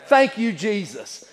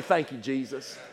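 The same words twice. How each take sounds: First: Slow, drawn-out thanksgiving; slow preacher's thanks; emphatic thanks. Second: Low, soft prayer of thanks; softly spoken gratitude; quiet thanks. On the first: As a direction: stretch each word out as heartfelt praise. Repeats thanks emphatically, second take. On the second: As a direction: drop the voice for a private thank-you. Models thanks on waking, first take. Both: Acted.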